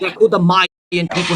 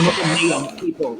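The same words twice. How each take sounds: First: "Mayan" said as MY-en; correct pronunciation. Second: "Mayan" said as MAY-en; wrong pronunciation. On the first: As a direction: say "Mayan" with a first syllable rhyming with "eye". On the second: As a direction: say "Mayan" with a first syllable rhyming with "day". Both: Shown as a demonstration.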